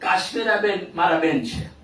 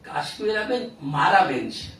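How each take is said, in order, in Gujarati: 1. કોઈ શબ્દ પર ખાસ ભાર મૂકવામાં આવ્યો નથી. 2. શબ્દ "મારા" પર જોરદાર ભાર છે. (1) "સાદું વાક્ય થયું" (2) "એટલે કે બીજા કોઈના નથી"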